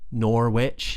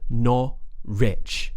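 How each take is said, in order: First: Every letter is sounded, as spelled. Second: It is reduced, like 'not rich'. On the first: The speaker calls it wrong. "the spelling is Norwich, Norwich, and you'd probably think that's how it's pronounced" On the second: The speaker calls it right. "but we would pronounce it as Norwich"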